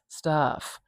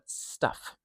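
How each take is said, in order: First: The vowel is stretched out long. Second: The vowel is said very short. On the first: The speaker calls it wrong. "it's kind of weird for me to stretch out that vowel" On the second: The speaker calls it right. "This is a really short vowel sound"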